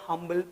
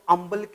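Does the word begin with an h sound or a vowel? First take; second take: h sound; vowel. First: The word starts with an h sound. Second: The word starts with a vowel, no h. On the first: This is how it should be read today. The speaker calls it right. "हम्बल पढ़ें" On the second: This is how it was read in earlier times. The speaker calls it wrong. "अम्बल की जगह"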